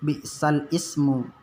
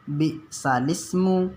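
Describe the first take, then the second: First: A glottal break separates 'bi'sal' from 'ismu'. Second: The 'l' runs straight into 'ismu' without a break. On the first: The speaker calls it wrong. "Jadi bacanya nanti bukan bi'sal ismu" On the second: The speaker calls it right. "tapi bacanya bi'salismu"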